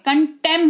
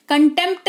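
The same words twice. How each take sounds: First: कंटेम with a silent P; correct pronunciation. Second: कंटेम्प्ट with P and T both sounded; wrong pronunciation. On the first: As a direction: say कंटेम, closing on M. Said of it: "कंटेम होता है". (सही उच्चारण, कंटेम में प मौन) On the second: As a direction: say कंटेम्प्ट, articulating the PT ending. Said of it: "कंटेम्प्ट नहीं होता है". (गलत उच्चारण, कंटेम्प्ट में प बोलकर) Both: Shown as a demonstration.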